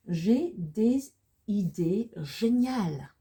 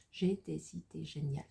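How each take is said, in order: First: Slow, loud, drawn-out French with swooping pitch; slow model reading. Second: Said in the usual way. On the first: Shown as a demonstration. Teacher presenting a French sentence to learners, slow model reading. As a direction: draw each French word out, higher and louder.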